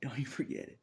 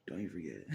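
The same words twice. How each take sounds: First: Loud warning. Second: Said in the usual way. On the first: Real, not acted.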